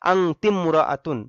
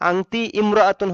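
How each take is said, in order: First: The 'ti' links straight onto 'mra'atun'. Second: The initial 'i' of imra'atun is pronounced separately. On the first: The speaker calls it right. "আলিফটা উচ্চারণে আসবে না" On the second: The speaker calls it wrong. "হয় স্বাভাবিক নিয়মে"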